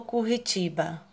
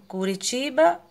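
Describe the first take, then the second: First: Curitiba with an H-like strong R; Curitiba, throaty double-R sound after the U. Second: Curitiba with a light tapped R; Curitiba, weak R after the U; soft tapped R. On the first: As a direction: say Curitiba as if spelt Curritiba. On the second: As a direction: say Curitiba with a single flick of the R. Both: Shown as a demonstration. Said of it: "qual foi a palavra".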